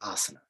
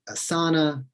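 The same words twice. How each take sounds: First: The word is said with a Sanskrit pronunciation. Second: The word is said with an anglicized pronunciation. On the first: The speaker calls it right. "they should say asana" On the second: The speaker calls it wrong. "instead of saying asana"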